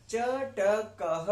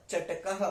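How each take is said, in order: First: Slow "चटकः", cha, ta, kaa-ha separated; syllable-by-syllable demo. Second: Said in the usual way. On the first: Shown as a demonstration. Teacher introducing the word, "चटकः" syllable by syllable. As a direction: spell out "चटकः" in sounds, pausing between syllables.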